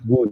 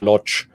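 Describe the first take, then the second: First: The name is said with a w sound. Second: The name is said with an l sound. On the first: The speaker calls it right. "with a w pronunciation" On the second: The speaker calls it wrong. "they would pronounce it in the German way"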